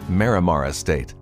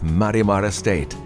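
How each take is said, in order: First: The name is said with an English pronunciation. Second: The name is said with a Spanish pronunciation. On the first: "it can be anglicized as" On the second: "That's my attempt at the Spanish pronunciation"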